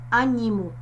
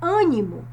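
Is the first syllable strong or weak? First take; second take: weak; strong. First: The first syllable is weak. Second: The first syllable is strong. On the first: The speaker calls it wrong. "não é animo" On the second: The speaker calls it right. "o som mais forte é o A"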